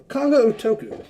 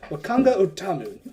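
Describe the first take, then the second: First: Wakanga Otoku, surname said as oh-TOH-koo; the mistaken surname Otoku; wrong surname. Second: Wakanga Otamu, surname said as oh-TAH-moo; the right surname Otamu; corrected surname. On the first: GM names the merchant with the wrong surname Otoku. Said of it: "Did I fuck that up?". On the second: GM corrects himself to the surname Otamu. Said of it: "Oh, Otamu, sorry". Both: Shown as a demonstration.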